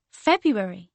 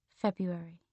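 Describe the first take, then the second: First: Emphatic realisation. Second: Low-key, softly dropped word; quiet realisation. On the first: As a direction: say it out with sudden conviction. Repeats it, now emphatically. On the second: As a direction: say it softly, as it dawns. Repeats name as realisation dawns. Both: Acted.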